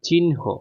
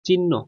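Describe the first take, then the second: First: The n sound comes before the h sound. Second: The h sound comes before the n sound. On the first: This is the standard pronunciation. The speaker calls it right. "কিন্তু এটার উচ্চারণ হচ্ছে চিহ্ন" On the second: This is how people usually say it. The speaker calls it wrong. "আমরা বলি তো চিহ্ন"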